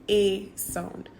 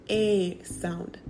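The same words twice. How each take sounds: No difference in how they are said.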